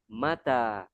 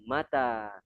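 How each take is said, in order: Both takes have the same delivery.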